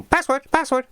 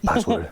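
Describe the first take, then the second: First: High-pitched, silly repeated demand; comically high wrong take; mock squawky voice. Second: Said in the usual way. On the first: Shown as a demonstration. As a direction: say it high and daft, twice over. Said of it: "It doesn't go". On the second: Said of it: "It just".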